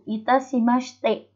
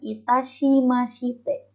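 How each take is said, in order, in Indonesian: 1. 'Shi' dilafalkan menjadi bunyi 's' saja. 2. 'Shi' diucapkan penuh dengan vokalnya. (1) "dibacanya S-nya aja. H I-nya nggak dibaca"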